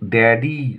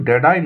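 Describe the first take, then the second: First: The word ends with an 'ee' sound. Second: The word ends with an 'eye' sound. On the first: The speaker calls it right. "এটা কিন্তু ড্যাডি" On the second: The speaker calls it wrong. "এটা কিন্তু ড্যাডাই নয়"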